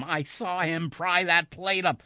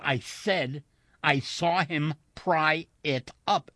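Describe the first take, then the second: First: Higher, louder, slow protest; urgent insistence. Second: "pry it up" slow, each word set apart; emphatic repetition. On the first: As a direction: insist urgently before being dismissed. Insists on what he saw. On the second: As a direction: hammer out "pry it up" deliberately, louder. Repeats it word by word. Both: A narrator's reading.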